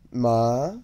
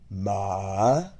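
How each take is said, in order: First: The pitch rises without dipping first. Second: The pitch dips down first, then rises. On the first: "Second tone" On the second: "Third tone, ... you descend before rising"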